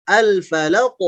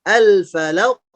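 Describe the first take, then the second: The two takes are said the same way.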